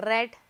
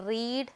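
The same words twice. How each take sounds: First: റെഡ് short like red; റെഡ് pronounced red, past form; past read. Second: റീഡ് with a long ee; റീഡ് pronounced reed, base form; present read. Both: Shown as a demonstration. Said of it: "pronunciation മാത്രമേ മാറുന്നുള്ളൂ".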